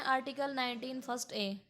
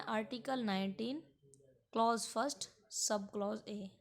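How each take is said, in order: First: Said in the usual way. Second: "article nineteen", pause, "clause first sub clause A"; name each level: "clause first", then "sub clause A"; corrected article reading. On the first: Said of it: "हमको ऐसे नहीं बोलना है". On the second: Shown as a demonstration. Teacher showing interview candidates the better way, "clause" and "sub clause" said in full. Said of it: "हमको बोलना है".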